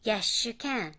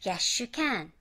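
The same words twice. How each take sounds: First: Yes you said as yeshu again; linked shu. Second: Yes you said as yeshu; linked shu. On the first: Teacher repeating yes you linked as yeshu. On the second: Teacher modelling yes you linked as yeshu. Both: Shown as a demonstration. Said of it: "sの後にゆが来る音".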